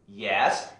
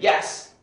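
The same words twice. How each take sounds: First: The voice rises at the end like a question. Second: The voice stays flat or falls at the end. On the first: The speaker calls it right. "with a question mark" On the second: The speaker calls it wrong. "Don't just say yes"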